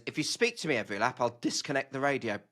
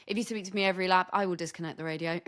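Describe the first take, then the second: First: Deadpan. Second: Quick, flat threat; dead dry, no hint of a joke; deadpan. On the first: Retold or imitated. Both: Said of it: "so incredibly deadpan".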